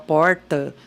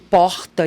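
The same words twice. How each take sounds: First: It is said with a rural countryside accent. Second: It is said with a Rio de Janeiro accent. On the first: "o caipira que fala porta" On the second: "o carioca falando porta"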